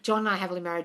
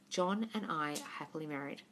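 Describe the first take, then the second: First: It is rattled off mechanically, without conviction. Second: It is said calmly, with confident conviction.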